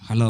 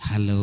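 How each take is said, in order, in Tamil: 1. "hello" வெடுக்கென்றும் கடுமையாகவும் ஒலிக்கிறது. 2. "hello" அன்பாகவும் இனிமையாகவும் ஒலிக்கிறது. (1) "இதான் பொண்டாட்டி" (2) "இப்போ இன்னொரு பொண்டாட்டிட்டு நான் பேசும்போது"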